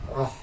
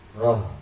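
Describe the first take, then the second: First: The h is a light, airy puff of breath. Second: The h is not a light, airy puff. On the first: The speaker calls it right. "hak kecil roh ya" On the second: The speaker calls it wrong. "Jangan roh"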